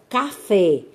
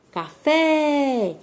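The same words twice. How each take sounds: First: Said in the usual way. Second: "café" called out, FÉ held long and high; calling out the word. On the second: Shown as a demonstration. Teacher calls the word to reveal the strong syllable, "café" with FÉ stretched high. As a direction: call "café" with a high, drawn-out final "fé". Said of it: "você chama pela palavrinha".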